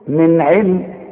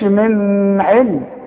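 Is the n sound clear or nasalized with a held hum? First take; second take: clear; nasalized. First: The n is said clearly without a hum. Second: The n is held with a nasal hum. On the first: The speaker calls it right. "شوف من علم" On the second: The speaker calls it wrong. "ما تقولش من علم"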